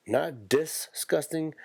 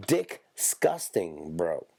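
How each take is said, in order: First: Said in the usual way. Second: Disgusting drawn out very slowly; stretched-out disgusting. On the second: Shown as a demonstration. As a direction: stretch Disgusting long and slow. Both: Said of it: "more disgusting than just regular disgusting".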